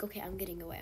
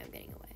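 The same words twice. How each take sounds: First: Said in the usual way. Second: Whispered under her breath, much softer; a hushed whisper, much softer. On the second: Real, not acted. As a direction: whisper it like sneaking off. Repeats it in a hush.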